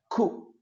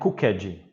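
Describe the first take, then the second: First: The -ed ending is weak, with no extra stressed syllable. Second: The -ed ending is a strong, stressed extra syllable. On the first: The speaker calls it right. "esse ed ele nunca é forte, ele é sempre fraquinho" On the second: The speaker calls it wrong. "Não é cooked"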